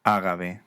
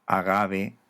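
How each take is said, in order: First: "ágave" stressed on its first syllable, á. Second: "agave" stressed on ga, with a B sound in ve; middle-syllable stress. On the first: Teacher giving the Spanish form, first-syllable stress on "ágave". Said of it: "en castellano". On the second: Teacher giving the intermediate form, middle stress on "agave". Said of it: "se consonantiza ante vocal". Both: Shown as a demonstration.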